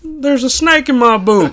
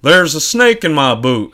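First: High, loud cowboy toy voice; squeaky cowboy doll catchphrase; pull string toy. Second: Pull string toy. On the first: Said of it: "That's your Woody". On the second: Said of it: "That was better". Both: Acted.

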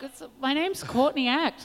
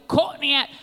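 First: Said in the usual way. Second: Put-on Australian accent. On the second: [name] saying her name in an Australian accent. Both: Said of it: "[name] would always say my name with an Australian accent".

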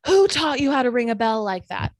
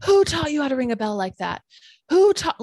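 First: Loud, scolding yell; retelling the angry neighbor's scolding, loud yell; old man yelling. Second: Louder, higher escalating yell; angrier yell. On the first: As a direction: bark the scolding at the careless girl. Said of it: "he yells". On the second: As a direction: build the rant until it nearly screams. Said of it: "and he's getting angrier". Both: Retold or imitated.

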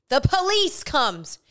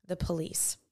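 First: High, slow emphatic reveal; dramatic announcement. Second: Low, very soft dramatic aside; hushed reveal. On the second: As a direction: drop it low and soft for suspense. Suspenseful reveal, then repeated. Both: Real, not acted.

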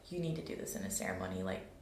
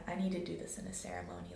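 First: Much lower, fast voice of inner guidance; deep inner voice. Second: Said in the usual way. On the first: Retold or imitated. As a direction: drop low like a voice from within. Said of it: "that was my download from that time, was like". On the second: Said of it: "I was like".

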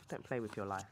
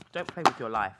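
First: Softer, lower repeat of "Don't play with your life."; low quiet echo of "Don't play with your life.". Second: Said in the usual way. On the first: Shown as a demonstration. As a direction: drop it to a quiet warning.

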